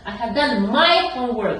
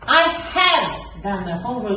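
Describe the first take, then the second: First: The word my is stressed. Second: The word my is not stressed. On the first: The speaker calls it right. "not yours" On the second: The speaker calls it wrong. "Agar bunaqa aytsangiz xato"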